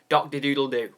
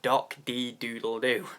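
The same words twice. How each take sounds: First: The name is said quickly in one run. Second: The name is said slowly, part by part. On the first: "I can never say your name really fast. Wait, let's try" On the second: "I always have to say in each individual part"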